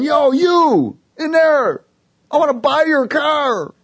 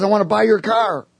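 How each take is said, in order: First: High, loud, stretched-out holler; retold yell. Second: Higher-pitched, lighter imitated call; stranger's retold call. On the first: Stranger parked way out calling to me, imitated yell. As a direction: imitate a man yelling across a park. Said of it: "the dude's yelling at me". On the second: Big guy offering to buy my car, lightly imitated call. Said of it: "And he says".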